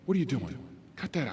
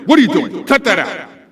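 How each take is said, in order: First: It is said quietly with calm, smooth energy. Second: It is said loudly with high, excited energy. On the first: The speaker calls it right. "No, that's backwards" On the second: The speaker calls it wrong. "That's your daytime D J voice for something negative"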